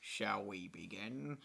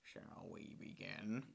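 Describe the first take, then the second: First: Slow low impression; slow, lower villain voice; Willem Dafoe voice. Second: Slow breathy low impression; slow, airy villain voice; Willem Dafoe voice. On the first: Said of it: "This is the same accent I use for George Lucas and Jared Leto". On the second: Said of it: "This is the same voice that I use for George Lucas and Jared Leto". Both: Shown as a demonstration.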